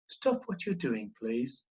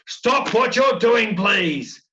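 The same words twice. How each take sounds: First: It is said at a normal, quiet level. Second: It is said loudly, with strong emphasis.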